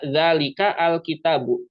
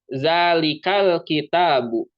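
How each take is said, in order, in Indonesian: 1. Bunyi 'a' diucapkan terpisah sebelum 'al'. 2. Kata-katanya menyambung tanpa bunyi 'a' yang terpisah. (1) "tidak dibaca" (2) "ketika dibaca menyambung"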